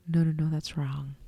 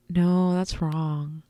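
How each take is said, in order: First: Whispered self-correction, softer; under-the-breath whisper of "no, no, no". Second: Said in the usual way. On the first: Real, not acted. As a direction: hush it to yourself, embarrassed. Correcting her own slip, hushed.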